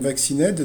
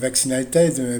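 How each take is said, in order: First: It is said with a French accent. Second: It is said with an English accent. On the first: The speaker calls it wrong. "je le fais à la française" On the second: The speaker calls it right. "normalement, c'est pas comme ça qu'on dit, c'est vaccinated"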